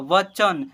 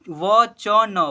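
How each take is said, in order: First: "वचन" joined as व-चन; blended into one word. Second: "वचन" as "व, च, न", loud; each letter of "वचन" with its own vowel; spelled letter by letter. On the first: Teacher reading what is written, blended. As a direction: close "वचन" on न, no final vowel. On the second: Teacher spelling what is written, letter by letter. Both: Shown as a demonstration. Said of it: "ऐसे पढ़ेंगे".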